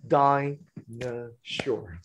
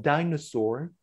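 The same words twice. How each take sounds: First: "dinosaur" in three slow, separated beats; syllable by syllable. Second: Said in the usual way. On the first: Shown as a demonstration. Trainer showing where to clap and high five, "dinosaur" slowly broken into syllables. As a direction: slowly beat out "dinosaur" with pauses between syllables. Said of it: "A high five towards the webcam for the stressed syllable". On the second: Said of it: "Should be dinosaur".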